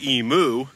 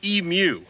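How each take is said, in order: First: The second syllable sounds like moo. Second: The second syllable sounds like mew. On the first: The speaker calls it wrong. "I say emu" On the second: The speaker calls it right. "the correct way to pronounce it is emu, like the Pokemon, Mew"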